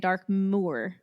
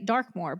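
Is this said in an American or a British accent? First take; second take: British; American. First: It is said in a British accent. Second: It is said in an American accent. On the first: "they want to say" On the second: "we're all going to say"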